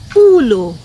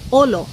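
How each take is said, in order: First: The first vowel is an oo sound. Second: The first vowel is an oh sound. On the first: The speaker calls it wrong. "We don't say ulo" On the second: The speaker calls it right. "we just say olo"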